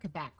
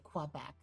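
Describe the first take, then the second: First: It is pronounced the local, non-American way. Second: It is pronounced the American way. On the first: The speaker calls it right. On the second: The speaker calls it wrong.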